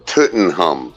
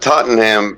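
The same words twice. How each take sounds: First: The name is said with German pronunciation. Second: The name is said with English pronunciation. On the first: The speaker calls it right. "the word is a German word, and it's pronounced" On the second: The speaker calls it wrong. "Tottenham is not the way"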